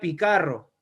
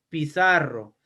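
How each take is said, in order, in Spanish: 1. La consonante del medio es un sonido k fuerte. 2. La consonante del medio es un sonido s suave. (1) "ya no sería picarro" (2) "sería ahora pizarro"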